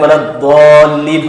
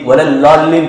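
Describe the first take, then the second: First: The letter is said with a d-like sound. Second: The letter is said with an l sound. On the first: This is how we recite it. "हम पढ़ते हैं बोलते हैं" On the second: This is how Tamil speakers recite it. "Tamil में ... वलल्लालीन पढ़ते हो"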